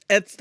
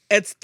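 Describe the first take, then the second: Both takes have the same delivery.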